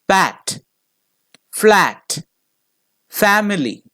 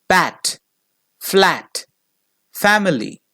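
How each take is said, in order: No difference in how they are said.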